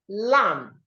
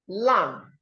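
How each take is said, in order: The two takes are said the same way.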